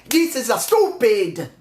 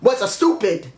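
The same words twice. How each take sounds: First: "This is a stupid" said slowly, each word leaned on, "This" hit hardest; slow emphatic. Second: Said in the usual way. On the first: Shown as a demonstration. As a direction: drag it out and hammer "This" as a deliberate restatement. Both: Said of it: "I gotta say it like that".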